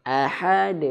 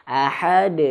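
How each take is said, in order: The two takes are said the same way.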